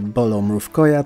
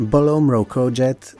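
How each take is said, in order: First: The name is said with Polish sounds. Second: The name is read with English sounds.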